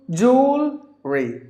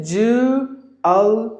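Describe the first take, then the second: First: "jewelry" slowly as jool, ree; high, stretched jool in "jewelry"; two syllables. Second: "jewelry" slowly as joo, ul, ree; three separate beats on "jewelry"; three syllables. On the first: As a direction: merge "jewelry" into two beats. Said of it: "two syllables". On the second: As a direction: keep the middle ul in "jewelry", pausing between parts. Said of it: "three syllables". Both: Shown as a demonstration.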